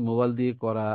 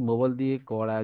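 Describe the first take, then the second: No difference in how they are said.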